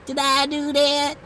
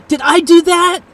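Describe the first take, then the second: First: Put-on comic voice. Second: High, loud surprise; startled question. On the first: Streamer jokes about breaking the assistant, put-on comic voice. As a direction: repeat it as a comic catchphrase. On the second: Real, not acted. Streamer wonders if they broke the assistant, startled. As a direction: ask it aloud, taken aback. Realises they may have caused it.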